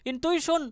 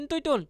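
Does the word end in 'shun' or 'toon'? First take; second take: shun; toon. First: The word ends with a 'shun' sound. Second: The word ends with a 'toon' sound.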